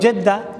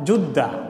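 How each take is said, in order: First: The first vowel is an e sound. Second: The first vowel is a u sound. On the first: "আমরা বলি জেদ্দা" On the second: "তিনোটা সহি"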